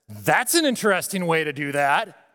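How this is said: It is said with a snide, nasty tone. The writer is being hostile or sarcastic. The speaker calls it wrong. "reading it with a little extra nasty on top of it"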